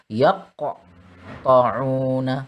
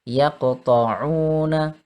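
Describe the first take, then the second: First: The q sound bounces with a big echo. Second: The q sound bounces with a small echo. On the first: The speaker calls it wrong. "Itu terlalu besar" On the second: The speaker calls it right. "Ini kecil"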